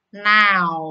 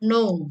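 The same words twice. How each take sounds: First: Now with loud au glide; target vowel. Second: Said in the usual way. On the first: Shown as a demonstration. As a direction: open into au in now. (now dengan bunyi au) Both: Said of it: "Ini yang benar".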